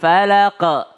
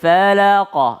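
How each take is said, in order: First: The final q ends with an e-like echo. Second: The final q ends with an o-like echo. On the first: The speaker calls it wrong. "bukan e, tapi lebih ke o" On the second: The speaker calls it right. "tapi lebih ke o"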